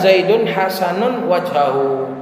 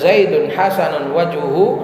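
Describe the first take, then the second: First: The last word has an 'a' vowel after 'wajh'. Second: The last word has a 'u' vowel after 'wajh'. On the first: He is good in every respect. "dibaca dengan nasab" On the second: Only his face is good. "Kalau dijadikan fa'il"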